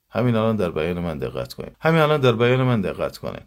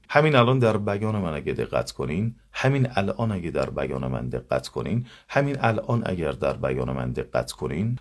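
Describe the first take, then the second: First: «همین الان در بیان من دقت کنید» fast with clipped vowels; rushed careless delivery. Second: «همین الان در بیان من دقت کنین» every vowel articulated fully; clear careful diction. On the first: Teacher contrasts careless fast speech. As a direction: gabble «همین الان در بیان من» quickly, mouth barely open. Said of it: "مثلاً بگم". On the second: Teacher models clear articulation to students. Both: Shown as a demonstration.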